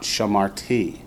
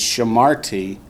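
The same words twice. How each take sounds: First: ShamarTI, weight on the last syllable; wrongly accent the TI in Shamarti; stress on final TI. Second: ShaMARti, weight on the middle syllable; accent the MAR in Shamarti; stress on MAR. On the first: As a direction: Shamarti with the stress moved to the end. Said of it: "not Shamarti". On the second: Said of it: "tells you where the accent goes". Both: Shown as a demonstration.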